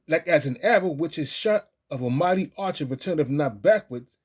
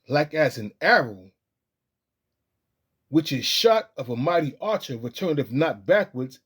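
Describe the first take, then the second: First: It is read fast and excitedly. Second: It is read slowly and calmly.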